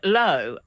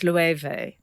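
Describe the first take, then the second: First: The name is said as one short syllable. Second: The name is said with several syllables. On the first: The speaker calls it wrong. "I looked like one syllable word" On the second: The speaker calls it right. "it turned out it had three"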